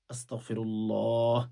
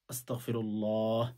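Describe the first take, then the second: No difference in how they are said.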